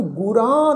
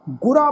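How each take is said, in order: First: ਗੁਰਾ with the final aa nasalised; ਗੁਰਾ ending in a drawn nasal aan; wrongly nasalised. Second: ਗੁਰਾ ending on an open oral aa; no nasal vowel. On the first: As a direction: say ਗੁਰਾ as guraan, vowel through the nose. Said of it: "ਬਿੰਦੀ ਲਗਾ ਕੇ pronounce ਨਹੀਂ ਕਰਨਾ". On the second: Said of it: "ਇਹਨੂੰ ਗੁਰਾ ਨਹੀਂ ਪੜ੍ਹਨਾ". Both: Shown as a demonstration.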